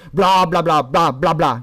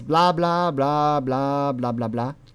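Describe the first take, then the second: First: It is said in an accusatory tone. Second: It is said as idle, rambling chatter. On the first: The speaker is blaming the listener. "you say "sorry."" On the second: The speaker is just making small talk.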